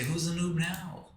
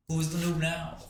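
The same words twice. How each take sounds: First: Slow, high gloating taunt; gloating villain. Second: Higher gloating repeat. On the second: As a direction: repeat the taunt, still gloating. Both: Pretend. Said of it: "And I'm gonna say".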